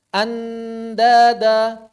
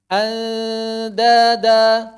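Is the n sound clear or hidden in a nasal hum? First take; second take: clear; hidden. First: The n is pronounced clearly and fully. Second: The n is hidden in a nasal hum. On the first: The speaker calls it wrong. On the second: The speaker calls it right.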